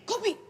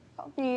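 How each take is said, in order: First: It is said in an angry tone. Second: It is said in a flirty tone.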